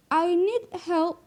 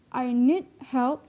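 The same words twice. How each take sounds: First: "I need help" said slowly with raised pitch; slow demo. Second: Said in the usual way. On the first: Shown as a demonstration. Teacher reads the example sentence aloud, slow. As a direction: draw out "I need help" word by word. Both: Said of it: "then it would be like that".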